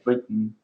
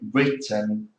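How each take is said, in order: First: The middle consonant is swallowed into the n. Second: The middle consonant and vowel are fully pronounced. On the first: The speaker is speaking quickly and naturally. "if you speak quicker, then you tend to abbreviate words" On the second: The speaker is speaking slowly and deliberately. "that's like careful pronunciation"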